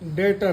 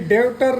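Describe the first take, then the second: First: The b sound before t is silent. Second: The b sound before t is pronounced. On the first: The speaker calls it right. "डेटर है" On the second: The speaker calls it wrong. "ऐसे ही ये डेब्टर नहीं है"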